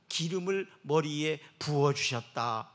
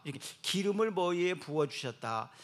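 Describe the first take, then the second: First: Slow, deliberate verse reading; solemn recitation; slow scripture reading. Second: Said in the usual way. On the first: Acted. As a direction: savour each word.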